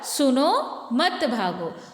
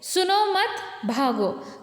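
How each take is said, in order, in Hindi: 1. विराम 'suno' के बाद है, 'mat' से पहले। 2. विराम 'mat' के बाद है, 'bhago' से पहले। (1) "सुनो पहले, मत भागो, भागना नहीं" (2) "सुनो मत भागो मतलब सुनना नहीं है, सिर्फ भागना है"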